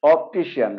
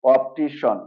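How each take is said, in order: First: "অপটিশিয়ান" ending in two syllables, shi-yan; common mispronunciation. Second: "অপটিশন" ending in one syllable shon; correct SHON ending. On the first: Teacher quotes the normal habit, "অপটিশিয়ান" ending shi-yan. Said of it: "normally উচ্চারণ করি". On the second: Teacher gives the correct pronunciation, "অপটিশন" ending in shon. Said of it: "correct প্রনাউন্সিয়েশনটা হলো". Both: Shown as a demonstration.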